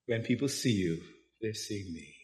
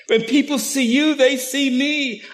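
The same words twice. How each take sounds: First: Lower, much softer intimate telling; quiet. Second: Much higher, louder, slowed proclamation; loud preaching. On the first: Preacher to congregation, hushed and close. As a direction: murmur it as a gentle reminder. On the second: Preacher to congregation, proclaiming at full voice. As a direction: ring it out as Jesus' promise. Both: Shown as a demonstration.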